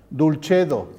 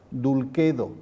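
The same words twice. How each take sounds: First: "Dulcedo" as dool-CHEH-doh; Italian-style "Dulcedo"; church Latin. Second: "Dulcedo" as dool-KEH-doh with a hard K; classical Latin. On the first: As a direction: Roman CH sound in "Dulcedo". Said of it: "se pronunciaría". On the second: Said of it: "el sonido C es caquequicocu". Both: Shown as a demonstration.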